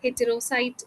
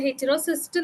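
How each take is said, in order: First: The last syllable sounds like 'site'. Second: The last syllable sounds like 'cyst'. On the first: The speaker calls it right. "ശരിക്കും actually അതിന്റെ pronunciation" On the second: The speaker calls it wrong. "ഹെറ്റിറോസിസ്റ്റ് എന്നല്ല"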